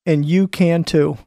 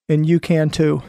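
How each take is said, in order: Both takes have the same delivery.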